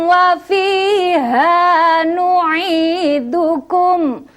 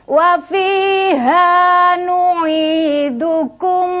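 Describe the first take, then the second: No difference in how they are said.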